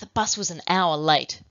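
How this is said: The sentence is said in an angry tone. "with the angry emotion"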